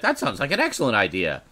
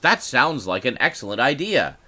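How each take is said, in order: First: The phrase is said very quickly, words running together. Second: The phrase is said at a normal, clear pace. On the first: "he said it very quickly. He's like" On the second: "what he actually said was"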